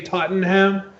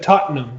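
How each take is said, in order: First: It is said with an American pronunciation. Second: It is said with an English pronunciation.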